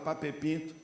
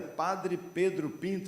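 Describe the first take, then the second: First: The first words are squeezed into one short word. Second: Every word of the name is said in full. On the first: "a gente fala Pape Pinto" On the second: "chama Avenida Padre Pedro Pinto"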